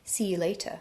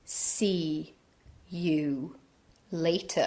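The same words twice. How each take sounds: First: It is said at a normal casual pace. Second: Each word is said slowly and deliberately.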